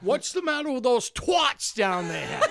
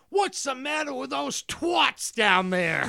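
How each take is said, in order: First: Put-on high, loud snooty girl yell, slowed; mock brat shout. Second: Put-on high, loud, slow spoiled girl yelling down; mock British brat scream. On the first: Quoting the movie girl to friends, high loud shout. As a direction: bellow the line like a spoiled girl. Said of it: "that was her quote". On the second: Retelling the movie girl yelling at workers, high mock scream. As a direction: shriek it like a snooty rich girl. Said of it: "She screams out".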